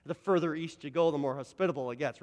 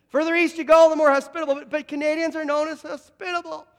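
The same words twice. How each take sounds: First: Said in the usual way. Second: Much louder, high-pitched repeat; rousing call for amens. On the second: Real, not acted. Preacher repeats it to get more amens, loud and rousing. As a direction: belt it out to rouse the congregation. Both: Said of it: "thought I'd get more amens".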